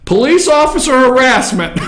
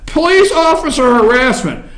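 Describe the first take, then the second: First: Reading it through real laughter; can't keep a straight face on the words; cracking up mid-read; laughing. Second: Said in the usual way. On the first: Real, not acted. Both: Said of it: "I shouldn't laugh".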